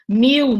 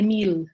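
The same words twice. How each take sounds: First: The final L is sounded like a vowel. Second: The final L is sounded as a consonant.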